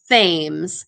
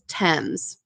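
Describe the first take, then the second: First: The name is said the way it looks. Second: The name is said as its guide shows. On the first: The speaker calls it wrong. "It looks like it says Thames" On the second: The speaker calls it right. "if you look at the parentheses and how to pronounce it, it says Thames"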